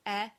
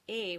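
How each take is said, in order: First: "e" as an open "eh", the word for is. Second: "e" as a closed "ay" without glide, the word for and. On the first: Teacher warning not to confuse two words, "e" said open. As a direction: say "e" wide open, like "eh". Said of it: "don't confuse "e" with "e". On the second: Teacher contrasting it with the word for is, "e" said closed. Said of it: "which means and". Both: Shown as a demonstration.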